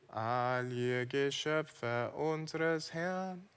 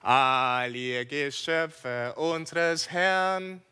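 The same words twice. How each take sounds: First: It is said in a dull, joyless way. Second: It is said in a joyful, jubilant way.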